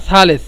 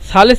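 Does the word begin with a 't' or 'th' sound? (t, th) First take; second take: th; th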